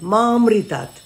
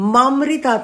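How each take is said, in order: First: Ma is kept apart from amritat. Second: Ma is merged into the next word. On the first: The speaker calls it right. "একটা ছোট্ট আকার আছে" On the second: The speaker calls it wrong. "মামৃতাৎ নয়"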